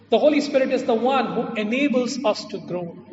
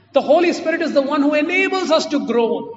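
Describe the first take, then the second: First: Said in the usual way. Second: The Holy Spirit said loud and high, every word pressed; emphatic first take. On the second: Shown as a demonstration. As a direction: drive home "The Holy Spirit is the one who enables us to groan" with force. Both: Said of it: "repeated for emphasis".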